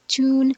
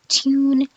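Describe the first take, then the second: First: No y glide follows the first consonant. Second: A y glide follows the first consonant. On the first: This is the American pronunciation. "we pronounce these words without a y" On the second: This is the British pronunciation. "in B E ... we see a y after the first consonant in these words"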